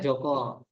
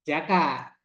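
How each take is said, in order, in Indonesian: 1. Vokalnya bunyi 'o'. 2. Vokalnya bunyi 'a'. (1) "masuk ke sini ke Jawa Joko" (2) "Kalau di Sunda namanya Jaka"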